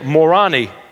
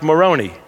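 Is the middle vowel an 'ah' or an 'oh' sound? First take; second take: ah; oh. First: The middle syllable has an 'ah' vowel. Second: The middle syllable has an 'oh' vowel. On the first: This mocks the name by making it sound like 'moron'. "I would say Morani is probably more appropriate" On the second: This is how the name's followers say it. "They say his name is pronounced Moroni"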